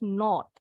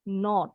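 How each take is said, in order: The two takes are said the same way.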